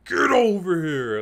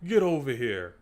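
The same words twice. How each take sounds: First: Loud, raised, drawn-out battle cry; like he means it. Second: Weaker, quick throwaway catchphrase; mocking lame delivery. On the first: Shown as a demonstration. YouTuber shows the actor how to do it, forceful shout. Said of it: "say that shit like he means it". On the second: YouTuber mimics the disappointing actor, mock lame delivery. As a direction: say it without real menace. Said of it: "the dude's just like".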